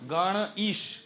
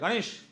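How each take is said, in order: First: It is said slowly, split into two parts. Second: It is said fast, joined into one word. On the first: The word's two parts stay separate. "ધીમે રહીને બોલશો" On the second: The two parts join together. "Fast બોલો"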